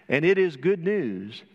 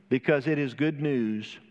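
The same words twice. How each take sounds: First: "it" hit firmly, whole phrase a bit louder; stress on it. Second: Said in the usual way. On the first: Shown as a demonstration. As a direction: lean on "it" in "And it is good news".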